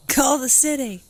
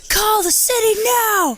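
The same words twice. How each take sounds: First: Higher, louder mock holler; retold shout. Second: High, piercing imitation scream; mock scream call. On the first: Retelling what he hollered at the fallen tree, mock shout. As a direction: holler it out, imitating him. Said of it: "he's all, you are all like". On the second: Acting out his frantic order about the tree, high mock scream. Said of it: "That is scream call".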